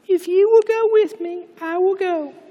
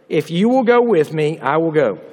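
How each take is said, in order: First: It is read dramatically, with added emphasis. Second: It is read plainly, without added emphasis.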